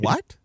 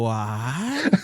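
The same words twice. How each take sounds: First: The word is short and quick. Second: The word is long and drawn out.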